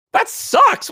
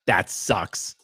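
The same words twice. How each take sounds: First: Much higher, louder, outraged disbelief; incredulous repeat. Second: Lower, softer, deadpan doctor imitation; mocking the doctor. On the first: Retold or imitated. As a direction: throw the doctor's words back in disbelief. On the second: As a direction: drop it flat like an unbothered doctor. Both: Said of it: "What is that, a medical opinion?".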